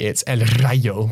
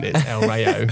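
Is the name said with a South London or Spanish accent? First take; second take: Spanish; South London. First: It is said with a Spanish accent. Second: It is said with a South London accent.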